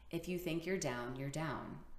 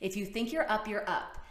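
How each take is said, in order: First: The voice is low and heavy. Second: The voice is high and lively.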